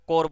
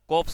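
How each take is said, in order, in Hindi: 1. p और s ध्वनियाँ मौन हैं। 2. p और s ध्वनियाँ बोली जाती हैं। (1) "कोर बोलते हैं इसको" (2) "कोप्स की जगह"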